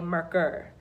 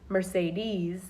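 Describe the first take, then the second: First: The word's final sounds are dropped. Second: The word is said with its full ending. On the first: "they'll just say Merker" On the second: "instead of saying like Mercedes"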